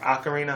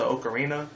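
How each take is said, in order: First: "ocarina" said the other way, opening on "ah"; alternative pronunciation. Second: Said in the usual way. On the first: Shown as a demonstration. Gamer offering another pronunciation, "ocarina" starting with "ah". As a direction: say "ocarina" with an open "ah" first vowel. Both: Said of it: "however you wanna pronounce it".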